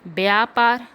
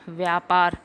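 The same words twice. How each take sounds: First: व्यापार started with by; wrong pronunciation. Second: व्यापार started with vy; correct pronunciation. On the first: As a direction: say व्यापार as byaapaar. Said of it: "नहीं होता". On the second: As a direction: say व्यापार as vyaapaar. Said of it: "होता है". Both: Shown as a demonstration.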